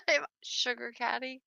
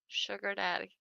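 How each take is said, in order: First: "caddy" with a clear hard k sound, not a d; correct word. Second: "daddy" said softer and lower, with a d sound; misheard word. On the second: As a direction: drop into "daddy" with a soft d. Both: Shown as a demonstration.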